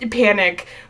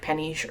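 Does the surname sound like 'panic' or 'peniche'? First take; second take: panic; peniche. First: The surname sounds like the word panic. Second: The surname sounds like peniche. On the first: The speaker calls it wrong. "that's not how you say her name" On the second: The speaker calls it right. "supposedly pronounced like Peniche or something like that"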